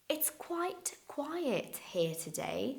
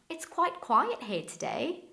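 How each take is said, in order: First: The sentence is said slowly and carefully. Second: The sentence is said quickly and smoothly. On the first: "because I don't say it like that in real life" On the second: "I'm gonna say it in a fast way"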